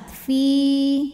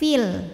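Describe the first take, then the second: First: The vowel is held long, about two beats. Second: The vowel is short and joined to the l. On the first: The reader stops on this word. "fi jika berhenti hukumnya matobi'i zahiri ... panjang dua harokat" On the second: The reader runs on into the next word. "Kalau wasol gugur pemanjangnya jadi pendek"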